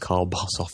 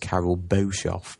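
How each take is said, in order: First: The first name is said with one syllable. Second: The first name is said with two syllables. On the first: The speaker calls it right. "but the name's Carl Bossoff" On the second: The speaker calls it wrong. "I was pronouncing the name as Carol Bossoff"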